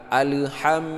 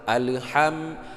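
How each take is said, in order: Both takes have the same delivery.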